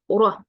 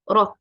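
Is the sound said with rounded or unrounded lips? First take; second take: rounded; unrounded. First: The heavy ra is said with rounded lips. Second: The heavy ra is said with unrounded lips. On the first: The speaker calls it wrong. "don't make O shape with your uh, lips, because this is very common mistake to say ra" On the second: The speaker calls it right. "make it heavy without doing this O shape... So it will be ra, ra, like this"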